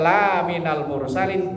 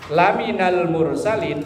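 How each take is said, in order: First: The vowel in 'la' is long. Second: The vowel in 'la' is short. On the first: You are not one of the messengers. "kalau lanya panjang" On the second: You are surely one of the messengers. "lanya pendek"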